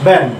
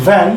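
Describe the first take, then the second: First: ভ্যান said as "ban", with a B; two-lip B. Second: ভ্যান with an English V; teeth-on-lip V. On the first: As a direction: press both lips to start ভ্যান as B. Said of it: "আর এটা দুই ঠোঁট". (ভ্যান, দুই ঠোঁটে "ব্যান") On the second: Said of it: "উপরের দাঁত, নিচের ঠোঁট". (ভ্যান, দাঁতে ঠোঁট লাগিয়ে) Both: Shown as a demonstration.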